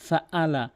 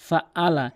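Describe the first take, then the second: The two takes are said the same way.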